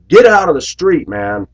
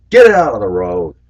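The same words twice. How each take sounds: First: Put-on high, loud shout at the kid; shouted order. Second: Firm, raised call out of the window. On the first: Bus driver yelling at kid in street, loud shout. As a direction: yell it out the bus door. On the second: Retold or imitated. Bus driver to kid in road, firm raised call.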